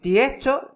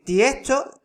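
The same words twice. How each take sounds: First: The s is breathed out like an h. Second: The same.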